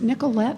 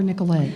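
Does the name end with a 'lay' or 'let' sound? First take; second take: let; lay. First: The name ends with a flat 'let' sound. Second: The name ends with a 'lay' sound. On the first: This is how people outside the region say it. The speaker calls it wrong. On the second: This is how the bank's own people say it. The speaker calls it right.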